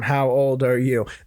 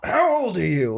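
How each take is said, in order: First: The question is asked in a casual, matter-of-fact tone. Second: The question is asked in a shocked, disapproving tone. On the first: The asker wants to know the age to decide what to offer. "That sounds like, oh, let me figure that out" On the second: The asker thinks the person is too young to be there. "you shouldn't be doing this"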